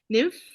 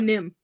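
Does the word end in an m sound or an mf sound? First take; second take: mf; m. First: The word ends with an 'mf' sound. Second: The word ends with a plain 'm' sound. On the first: The speaker calls it wrong. "you want to say it correctly or" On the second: The speaker calls it right.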